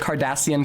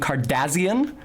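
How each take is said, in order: First: The stressed syllable ends with a plain S sound. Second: The stressed syllable ends with a Z sound.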